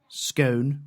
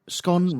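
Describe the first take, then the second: First: The vowel is long, rhyming with cone. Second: The vowel is short, rhyming with gone. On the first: "scone rhymes with cone" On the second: "scone rhymes with gone"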